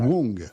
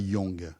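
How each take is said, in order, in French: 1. Le nom commence par un son 'w'. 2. Le nom commence par un son 'y'. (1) "On prononce pas le U" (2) "et pas Yang"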